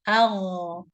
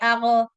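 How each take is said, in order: First: The consonant runs on smoothly without bouncing. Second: The consonant ends with a bouncing release. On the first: The speaker calls it right. "let the sound run for a bit" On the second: The speaker calls it wrong. "the sound should not be bouncing"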